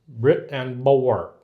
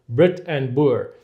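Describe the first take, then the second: First: It is said in an American accent. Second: It is said in the speaker's usual accent.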